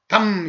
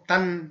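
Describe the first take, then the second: First: The syllable ends with closed lips, an m sound. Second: The syllable ends with open lips, an n sound. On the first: This is the Korean form, not the Japanese one. "이게 아니고" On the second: This is the Japanese form. "이게"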